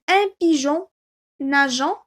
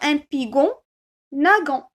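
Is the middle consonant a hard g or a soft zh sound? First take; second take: soft zh; hard g. First: The g sounds like a soft zh. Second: The g sounds like a hard g. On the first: The speaker calls it right. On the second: The speaker calls it wrong. "je vais lire ga, go, gu ... Et c'est faux"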